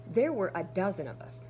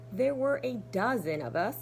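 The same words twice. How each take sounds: The two takes are said the same way.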